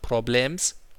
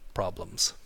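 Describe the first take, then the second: First: Every sound is pronounced with exaggerated care. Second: The word is pronounced in a relaxed, natural way. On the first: The speaker calls it wrong. "not problems" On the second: The speaker calls it right.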